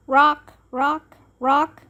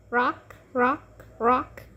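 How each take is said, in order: First: Said in the usual way. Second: Quiet, sing-song rocking words; soft rocking. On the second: A narrator's reading. Ivy rocks the baby, soft and lulling. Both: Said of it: "Then she rocked".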